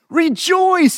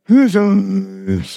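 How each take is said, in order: First: It is said excitedly, rising high. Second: It is said flatly and dully.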